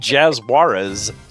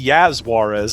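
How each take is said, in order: First: The name is said like the surname Juarez. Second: The name starts with a Y sound, Spanish-style. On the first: "I just said it wrong" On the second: "that would be Yaz Juarez"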